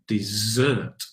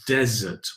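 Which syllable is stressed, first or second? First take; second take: second; first. First: The stress is on the second syllable. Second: The stress is on the first syllable. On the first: A sweet course like cake. "Stress on the second" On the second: A dry, sandy region. "The stress is on the first syllable"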